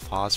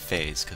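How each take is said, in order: First: The vowel sounds like 'oh'. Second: The vowel sounds like 'ay'. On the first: "it's an O, so I have to call it aerial phos" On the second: "you want to say phase with an A"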